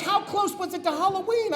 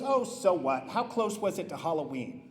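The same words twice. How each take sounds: First: High-pitched repeated question; retold mother pressing her point; insistent mom. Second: Low, soft, dismissive reply; retold mother brushing it off; unconcerned mom. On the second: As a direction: shrug it off quietly, pitched down. Mom shrugs off the vandalism.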